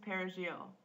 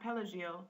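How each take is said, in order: First: The middle consonant is an R sound. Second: The middle consonant is an L sound. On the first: The speaker calls it right. "Parsley in Spanish is perejil" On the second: The speaker calls it wrong. "if it came out pelagil, the speaker was condemned to death for having a Haitian accent"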